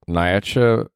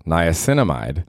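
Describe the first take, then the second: First: Niacinamide cut short as nai-a-cha, trailing off; mispronounced on purpose. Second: Niacinamide said fully as nai-a-SIN-a-mide; correct pronunciation. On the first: Host showing how he got the skincare word wrong, clipped mispronunciation. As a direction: stumble through Niacinamide clumsily, dropping the end. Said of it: "I'll say it wrong". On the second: Host repeating the friend's correct skincare word, careful pronunciation. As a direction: say every syllable of Niacinamide carefully. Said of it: "She said it's pronounced niacinamide". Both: Shown as a demonstration.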